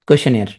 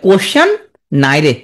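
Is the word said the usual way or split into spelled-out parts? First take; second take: usual; spelled-out. First: The ending is said smoothly like 'yair'. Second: The ending is split like 'naire' as 'nai re'.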